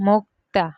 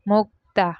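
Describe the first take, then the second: No difference in how they are said.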